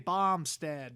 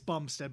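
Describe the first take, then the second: First: The name is said with a Chicago accent. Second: The name is said without a Chicago accent. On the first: "they have like a kind of a Chicago accent" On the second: "It's Bumstead"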